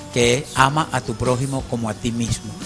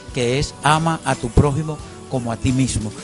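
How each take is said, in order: No difference in how they are said.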